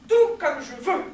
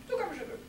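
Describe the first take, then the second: First: Loud, emphatic assertion; loud insistence. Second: Higher, softer restatement; soft repeat. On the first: Insisting on speaking as she pleases, loud assertion. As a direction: punch each word, defiantly. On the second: Repeating the insistence to oneself, soft and high. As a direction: drop the volume, lift the pitch. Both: Acted.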